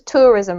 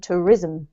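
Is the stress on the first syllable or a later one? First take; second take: first; later. First: The stress is on the first syllable. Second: The stress is on a later syllable. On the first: The speaker calls it right. "we have the emphasis on the first syllable" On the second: The speaker calls it wrong. "rather than"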